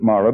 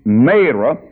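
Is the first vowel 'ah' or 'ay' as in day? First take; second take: ah; ay. First: The first vowel is not the 'ay' sound. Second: The first vowel is the 'ay' sound. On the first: This is how some other people say it. "some people call it Marah" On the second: This is the pronunciation the Bible gives. "my Bible said it's a long A"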